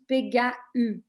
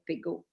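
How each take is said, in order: First: The final a and u are said separately. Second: The word ends in a single plain o. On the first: This is how it is read with the umlaut. The speaker calls it wrong. "the letter completely dissociate" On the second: This is the French pronunciation. The speaker calls it right. "if they speak French"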